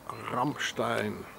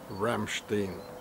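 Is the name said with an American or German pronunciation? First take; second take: German; American. First: The name is said with a German pronunciation. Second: The name is said with an American pronunciation. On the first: "So there's once more Ramstein" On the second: "or as the Americans pronounce"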